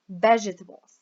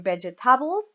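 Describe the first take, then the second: First: The stress is on the first syllable. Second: The stress is on a later syllable. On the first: The speaker calls it right. "We say vegetables" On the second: The speaker calls it wrong. "We don't say vegetables or vegetables"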